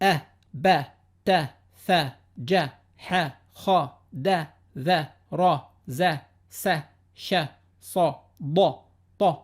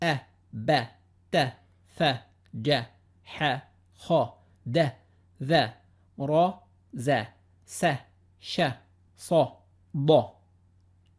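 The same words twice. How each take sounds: First: The letters are read at a fast pace. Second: The letters are read at a slow pace.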